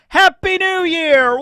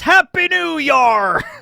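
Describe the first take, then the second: First: 'Year' is said with its ordinary vowel. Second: 'Year' is said as 'yar' in pirate style.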